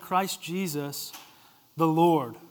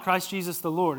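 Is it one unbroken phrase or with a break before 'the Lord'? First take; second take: break; unbroken. First: It has a break setting apart 'the Lord'. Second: It is said as one unbroken phrase.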